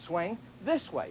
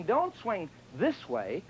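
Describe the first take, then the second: First: This pressed gently, spoken slowly; stress on this. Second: Don't pressed hard, spoken slowly as a warning; stress on don't. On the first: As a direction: lean on "this", calm and drawn out. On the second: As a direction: lean on "don't", drawn out and firm. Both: Shown as a demonstration. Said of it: "So when you swing".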